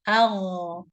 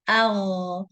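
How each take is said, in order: The two takes are said the same way.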